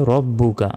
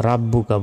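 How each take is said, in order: First: "রব্বুকা" with rounded, heavy "ro"; correct pronunciation. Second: "রাব্বুকা" with an open "ra"; mistaken pronunciation. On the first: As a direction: start "রব্বুকা" on a rounded o vowel. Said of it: "বলতে হবে". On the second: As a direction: start "রাব্বুকা" on a flat aa vowel. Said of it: "এটা ভুল". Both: Shown as a demonstration.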